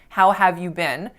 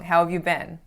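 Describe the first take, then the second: First: 'Have' is said fully and clearly. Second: 'Have' is reduced and blended into nearby words. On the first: The speaker calls it wrong. "I could have said how have" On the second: The speaker calls it right. "more natural and correct and appropriate to reduce there"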